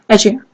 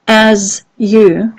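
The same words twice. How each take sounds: First: The z and y blend into one middle sound. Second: The z and y sounds are said separately. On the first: "when we say it fast... they go for the middle" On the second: "the tongue is here... where does it touch the roof? Here"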